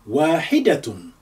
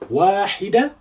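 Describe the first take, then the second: First: The word ends with the -tun ending. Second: The word ends without the -tun ending.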